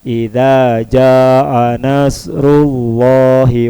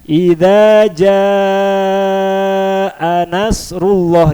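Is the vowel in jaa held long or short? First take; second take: short; long. First: The vowel in jaa is held short. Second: The vowel in jaa is held longer. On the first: The speaker calls it wrong. "dibaca ... disamakan dengan idza" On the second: The speaker calls it right.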